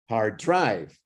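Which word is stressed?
drive. The stress falls on the word drive.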